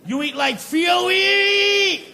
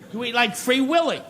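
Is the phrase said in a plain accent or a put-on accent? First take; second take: put-on; plain. First: It is said in a put-on foreign accent. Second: It is said in the speaker's plain accent.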